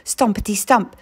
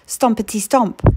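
Both takes have the same delivery.

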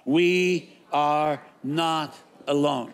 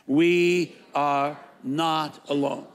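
First: Each word slow and weighted, "We are not alone"; slow call-and-response refrain. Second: "We are not alone" again, slow and weighty; repeated slow refrain. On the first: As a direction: lead the congregation, slow and deliberate. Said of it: "say it with me out loud". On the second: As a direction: say it again with the crowd, measured. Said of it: "Say it again". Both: Shown as a demonstration.

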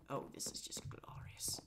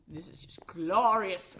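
First: Awed whisper. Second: Grand drawn-out praise. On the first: Real, not acted. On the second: Pretend. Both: Admiring his staircase.

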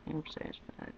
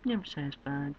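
First: Whispered under the breath. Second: Said in the usual way. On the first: Real, not acted. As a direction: breathe it out to yourself. Whispered repeat.

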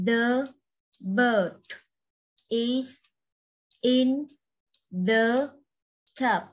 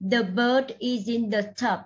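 First: Each word of "The bird is in the tub" said separately with pauses between; đọc từng chữ một, ngắt quãng. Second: "The bird is in the tub" read as one smooth phrase with the words joined; đọc nối liền cả câu; linked reading. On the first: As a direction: read "The bird is in the tub" one word at a time, like dictation. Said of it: "cô cho các em đọc lại từng chữ trong câu này". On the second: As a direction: link the words of "The bird is in the tub" together, no gaps. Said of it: "Nếu như đọc nối, cô sẽ nối hai từ này". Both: Shown as a demonstration.

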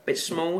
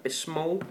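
First: Soft Cockney mimicry; London accent. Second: Quiet Cockney "Bit small"; London accent. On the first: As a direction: repeat "Bit small" in London accent. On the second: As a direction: drop the T, say it London way. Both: Shown as a demonstration. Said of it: "small in a London accent".

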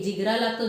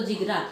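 First: Said in the usual way. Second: जिगरा repeated low, dropped and weighty; stress on जिगरा. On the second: Acted. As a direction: land जिगरा hard and low. (जिगरा शब्दावर खोल जोर)

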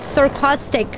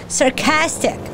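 First: "sarcastic" with an "ah" in the middle, sar-COS-tic; mispronounced. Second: "Sarcastic" with a flat a as in "cast"; corrected pronunciation. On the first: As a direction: stumble into "sarcastic" as "sarcostic". Stumbles on word, then corrects it. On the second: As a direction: say "Sarcastic" carefully as sar-CASS-tic. Corrects own slip. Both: Real, not acted.

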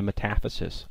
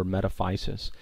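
First: "metaphysis" as muh-TAF-uh-sis; short-i pronunciation. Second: "metaphysis" as met-uh-FY-sis; alternative pronunciation. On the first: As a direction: stress the second syllable of "metaphysis", with a short unstressed vowel after it. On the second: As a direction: stress a long i in "metaphysis", rhyming the third syllable with "fie". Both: Shown as a demonstration. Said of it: "or metaphysis".

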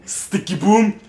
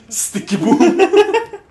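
First: Higher, louder sticky boom; imitating sticky boom sound. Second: Very high, slow, laughing; high squealed sticky boom. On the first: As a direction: mimic the game sound effect. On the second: Retold or imitated. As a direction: stretch it out, squealing. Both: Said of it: "sound like a sticky boom".

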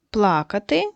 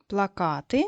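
First: Плакати stressed on ПЛА-; stress on first syllable. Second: Плакати stressed on -КА-; stress on second syllable. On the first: Teacher reading words from the list, плакати stressed on пла-. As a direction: say плакати as PLA-ka-ty, meaning to cry. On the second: Teacher showing another possible word, плакати stressed on -ка-. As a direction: say плакати as pla-KA-ty, meaning posters. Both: Shown as a demonstration. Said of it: "поставити по-різному наголос".

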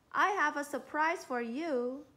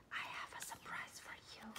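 First: Said in the usual way. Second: Quick breathy whisper, no voice. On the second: Shown as a demonstration. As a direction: whisper it fast like a secret. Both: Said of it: "he whispered to Amy".

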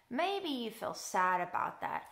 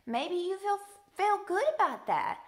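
First: Understated, sympathetic drop; a touch downcast; mildly sad. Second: Higher, upbeat lift; lifted, positive delivery. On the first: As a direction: suggest the sad feeling, gently subdued. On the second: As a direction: suggest the good feeling with raised pitch. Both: Real, not acted. Offering happy versus sad feelings.

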